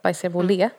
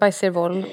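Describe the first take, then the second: First: The name ends with a final 'ay' vowel. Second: The name ends on a consonant, without final vowel. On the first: The speaker calls it right. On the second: The speaker calls it wrong.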